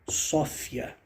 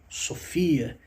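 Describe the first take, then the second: First: The stress is on the first syllable. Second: The stress is on the second syllable. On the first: "e sim como Sófia" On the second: "não como Sofia"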